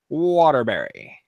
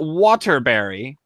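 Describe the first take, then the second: First: The middle T is skipped. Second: The middle T is clearly pronounced. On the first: The speaker calls it right. "we kind of skip them" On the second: The speaker calls it wrong. "not Waterbury"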